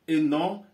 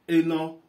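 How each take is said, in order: No difference in how they are said.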